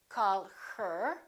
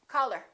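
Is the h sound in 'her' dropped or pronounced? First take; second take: pronounced; dropped. First: The h sound in 'her' is pronounced. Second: The h sound in 'her' is dropped. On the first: "We don't say call her" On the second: "when people are speaking naturally, we say call her"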